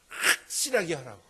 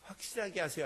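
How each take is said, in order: First: It is said forcefully and irritably. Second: It is said softly and gently.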